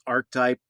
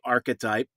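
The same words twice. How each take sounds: First: No extra 'e' vowel sound is added inside. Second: An extra 'e' vowel sound is added inside. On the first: The speaker calls it right. "I think the proper pronunciation is archetype" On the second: The speaker calls it wrong. "Sometimes I throw the E in there and say archetype"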